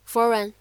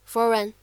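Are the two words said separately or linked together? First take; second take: linked; linked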